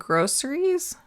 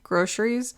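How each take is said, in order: First: The middle consonant is an 's' sound. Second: The middle consonant is a 'sh' sound. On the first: "now I'm saying groceries" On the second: "the S H version"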